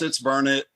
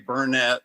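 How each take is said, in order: First: The stress is on the first syllable. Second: The stress is on the second syllable. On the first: The speaker calls it right. "Yes, it's Burnett. ... burn it, darn it, learn it" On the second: The speaker calls it wrong. "Don't ever say Burnett, or people around here will get after you"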